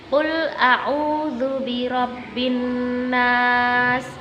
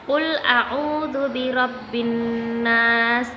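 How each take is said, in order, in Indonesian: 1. Dibaca dengan tempo sedang. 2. Dibaca dengan tempo paling cepat. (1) "agak lebih cepat daripada at-tahqiq tadi" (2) "Cara membacanya paling cepat ya"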